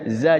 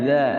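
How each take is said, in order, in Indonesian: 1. Konsonannya bunyi z biasa yang bergetar. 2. Konsonannya bunyi mirip th yang lembut. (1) "Tadinya za" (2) "jadi za"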